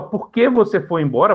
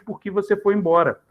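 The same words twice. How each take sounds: First: "que" said with a full clear E sound, like "kê"; careful spelling-out pronunciation. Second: "que" reduced to a quick little I, like "ki"; natural speech pronunciation. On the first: Teacher shows students the written form: "que" with clear E. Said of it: "mas na fala sai muito naturalmente". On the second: Teacher shows natural spoken form: "que" said as "ki". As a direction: let "que" slide into a light "ki". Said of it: "Reparem que eu falo um izinho". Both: Shown as a demonstration.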